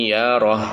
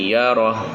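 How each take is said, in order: The two takes are said the same way.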